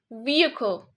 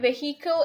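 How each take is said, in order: First: No h sound is heard in the middle. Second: An h sound is heard in the middle. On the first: The speaker calls it right. "there's no he sound in here" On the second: The speaker calls it wrong. "It's not the correct way"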